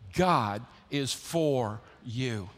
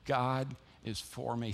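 First: Slow, weighty, each word spaced out; slow call and response. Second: Slow, soft, ending on "me" with a falling close; "God is for me" said slowly with a personal weight on "me"; stress on me. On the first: Preacher leading the church in unison, slow and weighty. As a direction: lead the congregation word by word. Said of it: "Say it with me". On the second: Preacher has the congregation point to themselves, slow and soft. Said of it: "change it and hear the way". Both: Shown as a demonstration.

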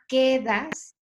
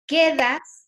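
First: "quedas" with a lighter lift on the first syllable "que"; stress on first syllable. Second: "Quedas" with the first syllable "que" hit high and loud; "Quedas" stressed up front, loud and lifted. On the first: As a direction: lean gently on the "que" of "quedas". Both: Shown as a demonstration. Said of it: "tiene el golpe fuerte en la primera sílaba".

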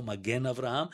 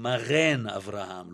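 First: Said in the usual way. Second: מרן with the soft gimel said as a throaty gh. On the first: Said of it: "לא". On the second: Shown as a demonstration. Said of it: "הספרדים המקוריים אומרים".

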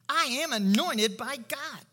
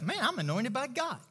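First: Slow, higher declaration, AM and ANOINTED given full weight; emphatic self-assurance. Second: Conversational self-affirmation; self-assurance. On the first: Believer assuring himself of anointing, emphatic declaration. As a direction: declare "I am anointed" deliberately, each word weighted. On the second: Believer assuring himself of God's anointing, easy confidence. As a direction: say it like talking yourself into it. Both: Acted. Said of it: "You assure yourself".

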